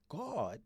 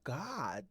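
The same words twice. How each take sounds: First: The word is said with a heavier, deeper sound. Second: The word is said with a lighter, plainer sound. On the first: The speaker calls it right. "it was heavier" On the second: The speaker calls it wrong. "his name is not God"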